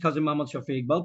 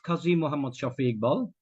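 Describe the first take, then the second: First: The name is said quickly and hurriedly. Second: The name is said at an unhurried pace. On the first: The speaker calls it wrong. "Unnecessary তাড়াহুড়া করার চেষ্টা করলাম" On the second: The speaker calls it right. "দেখবে যে কত ভালো লাগতেছে শুনতে"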